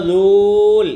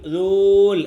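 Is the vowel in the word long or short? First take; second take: long; long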